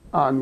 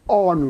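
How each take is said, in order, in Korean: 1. 모음이 열려 있어요. 영국식이 아니에요. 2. 모음이 영국식이에요. 혀를 뒤로 당겨요.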